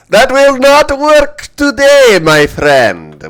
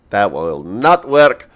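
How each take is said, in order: First: Put-on loud, high Russian accent. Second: Put-on Russian accent, leaning on not; slow mock Russian, stress not. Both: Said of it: "As to why I'm doing a Russian accent".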